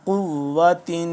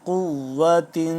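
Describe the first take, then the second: Both takes have the same delivery.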